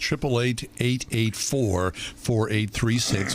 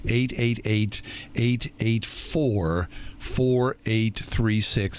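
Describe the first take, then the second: First: The number is read at a normal pace. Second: The number is read very slowly.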